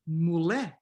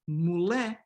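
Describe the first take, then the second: The two takes are said the same way.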